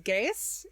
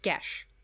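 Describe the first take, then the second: First: The word is not said as gesh or geese. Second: The word is said as gesh. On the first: The speaker calls it wrong. "the pronunciation of this spell irks me. Everyone says Geas in this" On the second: The speaker calls it right. "it's pronounced Gesh"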